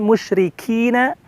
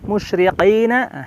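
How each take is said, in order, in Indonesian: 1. Bunyi k dibuat lebih ke depan. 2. Bunyi k dibuat jauh di belakang. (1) "Tapi musyrikina" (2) "awas menjadi dengan qaf"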